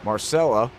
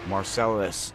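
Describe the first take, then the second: First: The name ends with an 'a' sound. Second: The name ends with an 'us' sound. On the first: The speaker calls it wrong. "Did I say it right? / No, Marcellus" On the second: The speaker calls it right. "Us. Yes"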